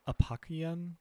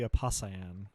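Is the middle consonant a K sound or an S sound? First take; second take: K sound; S sound. First: The middle consonant is a hard K sound. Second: The middle consonant is a soft S sound. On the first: The speaker calls it wrong. "I always pronounce this uh, Apokian because of the hard C in apocalypse" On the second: The speaker calls it right. "but it's probably Apasayan because of cyan"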